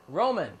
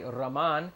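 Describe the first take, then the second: First: The stress is on the first syllable. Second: The stress is on the last syllable.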